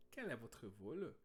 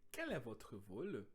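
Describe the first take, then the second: First: "Quel est votre vol" repeated slowly with a rising end; repeated French model. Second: Quel est votre vol said slowly, quel stressed; slow model French. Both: Shown as a demonstration.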